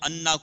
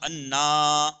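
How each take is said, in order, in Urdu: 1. حرکت چھوٹی رکھی جاتی ہے۔ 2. حرکت کو لمبا کھینچا جاتا ہے۔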